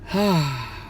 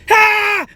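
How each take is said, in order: First: It is said softly and calmly. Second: It is screamed very loudly.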